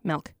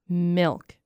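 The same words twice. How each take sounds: First: The vowel sounds close to an 'eh' sound. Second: The vowel is a plain short 'ih' sound. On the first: "Kind of like with an E-ish sound" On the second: "How do you say it?"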